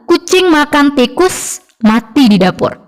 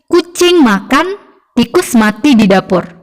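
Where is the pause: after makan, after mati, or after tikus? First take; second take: after tikus; after makan. First: There is a pause after tikus. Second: There is a pause after makan.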